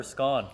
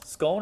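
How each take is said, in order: First: "scone" with a short, open o. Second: "Scone" with a long o. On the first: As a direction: say "scone" to rhyme with gone. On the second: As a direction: say "Scone" to rhyme with bone. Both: Shown as a demonstration. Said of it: "Scone or scone?".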